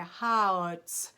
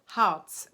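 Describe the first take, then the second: First: "Harz" stretched so vowel and R both show; two sounds separated. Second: "Harz" quick and loud, R blended into the vowel; sounds run together. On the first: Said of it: "there's two sounds in there". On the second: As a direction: go through "Harz" fast as one syllable. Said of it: "you go through it pretty fast". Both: Shown as a demonstration.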